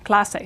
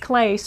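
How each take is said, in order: First: The final vowel is clearly pronounced. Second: The final vowel is dropped and silent. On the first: The speaker calls it right. "You s pronounce every vowel that you see" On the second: The speaker calls it wrong. "So no E at the end making this clase or anything like that in English"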